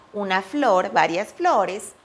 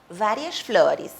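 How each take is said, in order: First: "várias flores" said the Spanish way, "b" start and a full final "es"; pronúncia espanhola; Spanish pronunciation. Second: "várias flores" slow, with the final "es" softened toward "ri"; pronúncia brasileira; Portuguese pronunciation. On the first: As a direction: read "várias flores" slowly like a Spanish speaker. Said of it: "Em espanhol também dizemos". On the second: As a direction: model "várias flores" slowly the Brazilian way. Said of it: "e assim vão fazer em português". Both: Shown as a demonstration.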